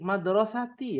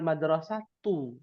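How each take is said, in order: First: The word ends with an 'i' vowel. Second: The word ends with a 'u' vowel. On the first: The speaker calls it right. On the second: The speaker calls it wrong.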